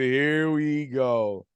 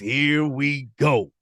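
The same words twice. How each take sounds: First: It is said in his normal voice. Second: It is said in his put-on CP voice.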